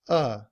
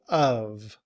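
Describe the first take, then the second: First: It is just a schwa with no v. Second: It is said fully, ending in a v. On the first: "we often leave off the sound of the V, and we just use the schwa" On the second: "So we say of"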